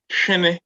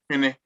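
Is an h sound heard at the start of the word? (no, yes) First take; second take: yes; no. First: The word starts with an audible h sound. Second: The word starts without an audible h sound. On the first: This is how Asante speakers say it. "the Ashantis will pronounce it as it has been written" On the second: This is how Akuapem speakers say it. "the Ikuapem are going to say Winnie without you hearing the H"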